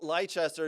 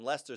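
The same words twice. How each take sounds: First: The name is said with three syllables. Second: The name is said with two syllables. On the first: This is how the other host says it. The speaker calls it wrong. "as you would call them" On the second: This is how everyone else says it. The speaker calls it right. "as the rest of us in the world call them"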